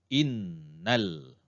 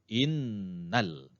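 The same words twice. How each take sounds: No difference in how they are said.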